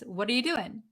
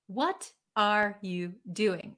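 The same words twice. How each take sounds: First: The words are reduced and run together quickly. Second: Each word is said fully and clearly. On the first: "somebody says" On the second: "That means"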